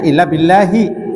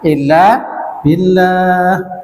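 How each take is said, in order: First: The last word ends with a hi vowel. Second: The last word ends on an h consonant. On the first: This is the original full form. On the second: This is how it is read when stopping.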